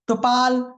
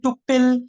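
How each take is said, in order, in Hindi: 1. दूसरे अक्षर में लंबा 'aa' स्वर है। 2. यह एक छोटी 'pill' आवाज़ पर खत्म होता है।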